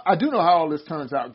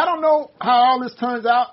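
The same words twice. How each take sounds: First: A firm corrective DO in I do know; stress on DO. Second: Said in the usual way. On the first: Real, not acted. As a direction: DO stressed and set apart from the rest.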